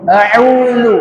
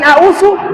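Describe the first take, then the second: First: The middle consonant is a dz sound. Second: The middle consonant is an s sound. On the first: The speaker calls it right. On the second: The speaker calls it wrong.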